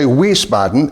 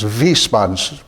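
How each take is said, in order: First: The name begins with a W sound. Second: The name begins with a V sound. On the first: The speaker calls it wrong. "when I don't say" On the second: The speaker calls it right. "with a V"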